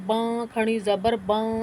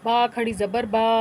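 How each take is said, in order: First: The sound goes through the nose. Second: The sound stays out of the nose. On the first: The speaker calls it wrong. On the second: The speaker calls it right.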